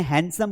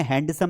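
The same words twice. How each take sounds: First: हैंडसम said as "hansum", no d sound; हैंडसम with the d kept silent. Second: हैंडसम said as "hand-sum", d clearly sounded; हैंडसम with a spoken d; wrong way with d. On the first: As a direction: say हैंडसम dropping the d entirely. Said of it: "हैंडसम बोलना है". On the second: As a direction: say हैंडसम pronouncing the d, as the mistake. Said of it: "हैंडसम नहीं बोलना है". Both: Shown as a demonstration.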